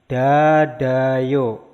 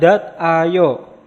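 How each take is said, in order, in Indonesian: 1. Konsonan terakhir menyambung ke suku kata berikutnya. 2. Konsonan terakhir dipisah dari suku kata berikutnya.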